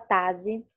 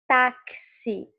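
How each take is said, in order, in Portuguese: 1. A consoante do meio tem som de z. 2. A consoante do meio tem som de ks. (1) "ele não tem o som de Z, você não fala tazi" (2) "você fala táxi... tem dois sons"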